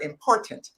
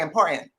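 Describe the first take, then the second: First: The middle t is clearly pronounced. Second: The middle t is swallowed, not clearly pronounced. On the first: The speaker calls it right. "they don't say the word important" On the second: The speaker calls it wrong. "They say important"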